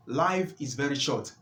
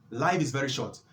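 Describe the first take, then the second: No difference in how they are said.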